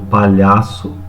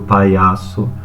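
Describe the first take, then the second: First: The palatal 'lh' sound is pronounced. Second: The 'lh' becomes an 'i' glide. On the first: The speaker calls it right. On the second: The speaker calls it wrong.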